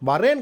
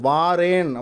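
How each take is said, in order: First: The first vowel is short. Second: The first vowel is long. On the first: The speaker calls it wrong. "வரேன் கிடையாது" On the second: The speaker calls it right. "வாரேன் அப்படின்றதான் சொல்லணும்"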